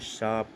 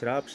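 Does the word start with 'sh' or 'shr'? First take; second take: sh; shr. First: The word begins with a plain 'sh'. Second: The word begins with an 'shr' cluster. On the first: The speaker calls it right. "सही शब्द है शाप" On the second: The speaker calls it wrong. "श्राप शब्द गलत होता है"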